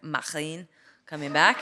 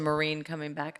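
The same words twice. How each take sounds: First: It is said in a French accent. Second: It is said in a plain American accent.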